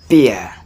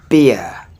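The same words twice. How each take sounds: The two takes are said the same way.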